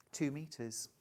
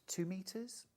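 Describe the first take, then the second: First: Two metres with a firm falling close; settled answer. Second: Two metres said as a rising guess; questioning. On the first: Presenter answering her own sum, calm falling confirmation. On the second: Presenter working out yardage for viewers, unsure rising guess. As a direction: ask yourself "two metres?" with a lift at the end. Working out fabric needed aloud. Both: Shown as a demonstration.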